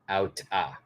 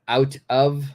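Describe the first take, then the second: First: The word 'of' is reduced to a short 'a'. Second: The word 'of' is said in full. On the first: This is how it is said in speech. "the pronunciation is going to be outa" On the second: This is the written form. "out of is the original original way to write it"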